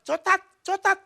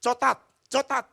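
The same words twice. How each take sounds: First: Put-on high, loud little-girl chant; high, loud mock-child "Cotat, cotat"; child's lisp demo. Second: Put-on high, louder little-girl voice; high childish "Cotat, cotat"; child asking for chocolate. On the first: Shown as a demonstration. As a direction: show the child exactly how to ask. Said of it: "Nanti kamu bilang". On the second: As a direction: ask the shopkeeper like a small child. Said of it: "kasih warungnya".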